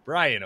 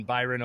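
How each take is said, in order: First: Bryan said as BRY-an, like the first name; correct pronunciation. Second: Byron said as BY-ron, like the poet's name; misreading. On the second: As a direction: Byron pronounced BY-ron with a long I and rolled middle. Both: Real, not acted. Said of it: "Bryan, Ohio".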